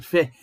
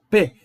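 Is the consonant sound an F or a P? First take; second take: F; P. First: A soft f sound with continuous friction. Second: A strong p sound with a burst of air. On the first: The letter has no dagesh. "Ele vira um Fê" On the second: The letter carries the dagesh. "Ele tem força, ó"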